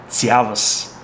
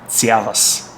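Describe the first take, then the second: Both takes have the same delivery.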